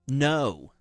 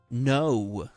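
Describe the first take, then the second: First: It is said in an imitated American accent. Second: The same.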